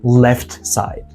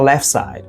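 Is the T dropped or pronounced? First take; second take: pronounced; dropped. First: The T is clearly pronounced. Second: The T is left out. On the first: The speaker calls it wrong. "not left side" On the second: The speaker calls it right. "There's a stranger on the left side"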